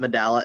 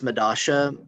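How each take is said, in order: First: The middle consonant is a 'y' or 'l' sound. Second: The middle consonant is an 'sh' sound. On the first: This is the way most people say it. The speaker calls it wrong. "everyone's going to pronounce it Medalla" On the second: This is the local Buenos Aires way of saying it. The speaker calls it right. "It's Medasha. ... a specific dialect in Buenos Aires pronounces it Medasha"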